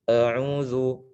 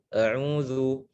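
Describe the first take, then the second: The two takes are said the same way.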